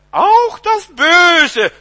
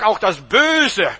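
First: High, very loud, drawn-out cry; stretched, soaring shout; emphatic preacher's shout. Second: Said in the usual way. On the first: Real, not acted. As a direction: thunder it out slowly from the pulpit. Preacher repeats the phrase for emphasis.

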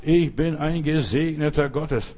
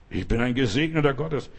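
First: Langsames, abgesetztes Bekenntnis; Schritt für Schritt. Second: Said in the usual way. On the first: Shown as a demonstration. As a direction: sprich es langsam, Wort für Wort wie im Gehtakt. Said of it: "reh jeden Schritt, den du machst". (langsam und nachdrücklich skandiert) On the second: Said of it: "reh jeden Schritt".

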